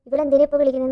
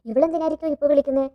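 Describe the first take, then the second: First: Louder, snappier retold anger; bursting out irritated at the call; mock angry outburst. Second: A touch of irritation, slightly raised; muttering half-annoyed at the caller; mild mock annoyance. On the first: (ഉച്ചത്തിൽ ദേഷ്യപ്പെട്ട്) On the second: (ചെറിയ ദേഷ്യത്തോടെ) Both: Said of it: "എന്നുള്ള രീതിയിൽ ദേഷ്യപ്പെട്ടിട്ട്".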